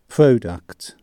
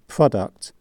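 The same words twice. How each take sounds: First: The first syllable has a long vowel. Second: The first syllable has a short vowel. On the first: The speaker calls it wrong. "not product" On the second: The speaker calls it right. "pronounced with a short, not a long sound on the first syllable"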